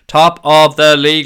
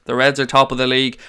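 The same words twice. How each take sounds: First: "Top of the league" louder and slower, leaning on "top"; drawn-out "Top of the league" boast; proud shout. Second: Said in the usual way. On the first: Shown as a demonstration. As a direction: chant "Top of the league" slowly and loud. Repeats the chant louder.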